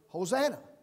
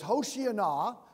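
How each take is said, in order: First: The word is said in its shorter, modern form. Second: The word is said in its older, longer form. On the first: It announces that salvation is coming. "pronounced the way we pronounce it" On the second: It is a plea asking to be saved. "this Old Testament phrase"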